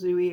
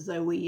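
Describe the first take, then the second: First: The first vowel sounds like 'oo'. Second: The first vowel sounds like 'oh'. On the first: The speaker calls it right. "I'm almost certain her name is pronounced Zooey" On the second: The speaker calls it wrong. "Everyone pronounces it Zoe"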